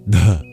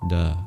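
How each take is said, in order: First: The d is released with an extra puff of breath. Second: The d is released with no extra breath. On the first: The speaker calls it right. "It sounds like duh" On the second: The speaker calls it wrong. "rather than duh"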